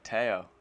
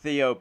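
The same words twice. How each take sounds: First: The name is pronounced the French way. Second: The name is pronounced the English way. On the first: The speaker calls it right. "It's like Théo" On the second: The speaker calls it wrong. "if you want to be English, it's Théo Pourchaire, but you don't pronounce it like that"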